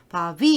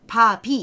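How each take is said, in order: First: The middle consonant is a voiced, softened sound. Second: The middle consonant sounds like a plain stop. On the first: This is how it is actually pronounced. "발음을 사실은 바비 이렇게 되는 거야" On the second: This is how people assume it is said. "우리는 그냥 바비 이렇게 한다고 생각하는데"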